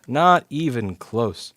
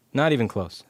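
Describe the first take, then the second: First: "Not even close" said slowly and louder, each word hit; emphatic repeat. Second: Said in the usual way. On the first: Shown as a demonstration. Repair tech shooting down a chat guess, slow and emphatic. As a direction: drag out "Not even close" and lean hard on every word.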